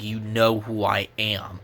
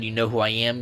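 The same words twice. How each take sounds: First: Slow, menacing hero line; heroic hero voice. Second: Said in the usual way. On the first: Retold or imitated. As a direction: deliver it slowly like Optimus Prime. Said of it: "he glared at them". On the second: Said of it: "after he said".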